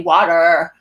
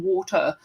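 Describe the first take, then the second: First: "water" loud, with an American final R; hard-R American "water"; American pronunciation. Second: "water" the British way, no final R; non-rhotic British "water"; British pronunciation. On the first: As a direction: punch out "water" like "wadder". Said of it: "they need me to say". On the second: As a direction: say "water" with a soft British ending. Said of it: "don't know what I'm asking for". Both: Shown as a demonstration.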